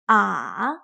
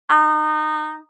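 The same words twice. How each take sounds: First: The pitch dips down then rises again. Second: The pitch stays high and level. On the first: "It starts in the middle, dips down, and then goes up again" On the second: "It starts high and maintains the high pitch the whole time"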